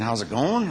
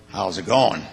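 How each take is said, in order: First: "how's it going" with a rising, questioning tune. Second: "how's it going" with a falling, offhand greeting tune; casual greeting tune. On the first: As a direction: ask "how's it going" as a real open question, voice going up. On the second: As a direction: toss off "how's it going" as a passing hello, voice falling. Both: Shown as a demonstration. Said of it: "You mean how's it going, or".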